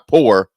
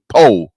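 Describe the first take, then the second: First: The word ends with the r sound. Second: The word ends without the r sound. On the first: Just ordinary poverty. The speaker calls it wrong. "not poor" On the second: The poverty was so deep it was beyond ordinary poor. The speaker calls it right. "Can't afford the O R"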